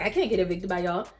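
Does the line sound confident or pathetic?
confident. It is said in a strong, confident way.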